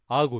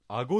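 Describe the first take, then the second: First: It uses the Niigata dialect pitch accent. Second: It uses the standard Japanese pitch accent. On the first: The speaker calls it right. "新潟の人は顎って言います。" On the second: The speaker calls it wrong. "それは共通語の読み方です。"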